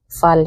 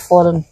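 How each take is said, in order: First: The word has a Swedish pronunciation. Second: The word has an English pronunciation.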